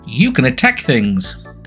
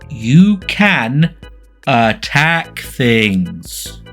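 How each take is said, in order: First: It is said plainly at normal speed. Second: It is said slower and sarcastically.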